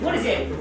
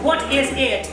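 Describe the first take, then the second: First: The words run together without breaks. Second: Each word is said separately, robot-like. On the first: The speaker calls it right. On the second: The speaker calls it wrong.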